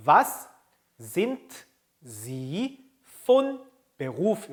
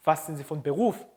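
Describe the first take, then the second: First: Slow, word by word with gaps; read-along pacing. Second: Said in the usual way. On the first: Shown as a demonstration. Teacher leads learners reading along, word by word. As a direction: leave space after each word for learners to echo. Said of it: "따라 읽어봅시다". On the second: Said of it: "이렇게 하게 됩니다".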